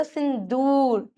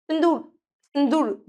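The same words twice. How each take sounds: First: सिंदूर slowed, with दू stretched long; "sin-dooooor", vowel held; drawn-out ū. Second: सिंदूर ending in a short "dur"; quick last vowel in सिंदूर; short-u error. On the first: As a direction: drag out the oo in सिंदूर. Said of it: "खींचते हैं मात्रा को". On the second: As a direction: say सिंदूर wrongly with a brief u. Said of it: "इसलिए बड़े ऊ की मात्रा". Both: Shown as a demonstration.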